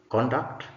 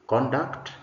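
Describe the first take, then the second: Both takes have the same delivery.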